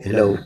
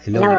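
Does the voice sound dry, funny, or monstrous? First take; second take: dry; funny. First: The voice sounds dry, with no echo. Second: The voice is altered to sound comical. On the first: "walang echo. Pangit" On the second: "Kenkoy. Kenkoy. Pangit"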